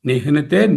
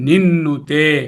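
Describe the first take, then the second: First: A clear h sound comes before the n. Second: No h is heard; a strong n instead. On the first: "నిహ్నుతే అంటే ముందు హెచ్చి తర్వాత ఎన్ పలకాలి" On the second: "నిన్నుతే అని చదువుతాం"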